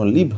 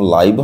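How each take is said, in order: First: The vowel is a short 'i' sound. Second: The vowel is a gliding 'eye' sound. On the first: "কখনো লিভ হয়" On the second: "কখনো লাইভ হয়"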